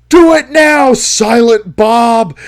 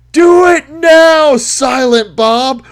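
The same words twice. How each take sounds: First: Much louder and higher, a full-throated yell; yelled command. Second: Loud, high and slow, each word stretched; slow drawn-out yell. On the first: Crank yelling a signal to his accomplice, loud and high. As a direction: scream the order into the mic. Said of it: "leans into the mic and yells". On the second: Crank yelling a drawn-out signal to his accomplice, loud and slow. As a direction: drag the yell out like a war cry. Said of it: "Then he yells again". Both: Retold or imitated.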